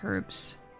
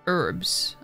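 First: The word starts with an h sound. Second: The word starts without an h sound. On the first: "I always say herbs" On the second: "I never say her herbs"

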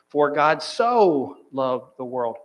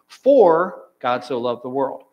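First: The stress is on "so". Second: The stress is on "For".

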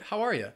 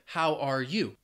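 First: The words are blended together with a reduced ending. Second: Each word is said separately and fully. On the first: The speaker calls it right. "it's more natural and common to hear people say" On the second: The speaker calls it wrong. "you can say those words individually like I just did"

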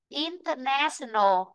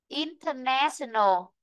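No difference in how they are said.

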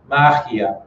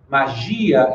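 First: The stress falls where Spanish places it. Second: The stress falls where Portuguese places it. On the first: "vira magia" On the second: "Magia em português"

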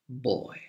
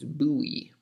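First: The word is said with one syllable, like 'boy'. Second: The word is said with two syllables, like 'boo-ee'. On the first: "the other pronunciation that is also correct, is boy" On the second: "One, and the more common pronunciation, is buoy"

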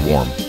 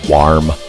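First: The vowel is said in a plain, ordinary way. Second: The vowel is heavily emphasized and drawn out. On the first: This is the speaker's own usual way. "Normally I say warm" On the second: This copies how a friend says it. "Zeke really emphasizes the A"

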